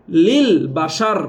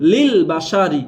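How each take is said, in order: First: লিল বাসার closed on a vowelless r; slow লিল বাসার, no i after the final r; stopped ending. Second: লিল বা সা রি with final ri sounded; unstopped ending. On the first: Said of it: "শেষের হরফটা যোজম হয়ে যাবে". (শেষে যোজম দিয়ে লিল বাসার) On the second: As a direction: give the last r an i vowel in লিল বা সা রি. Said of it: "থামলে কি হবে". (না থেমে শেষে রি দিয়ে লিল বা সা রি) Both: Shown as a demonstration.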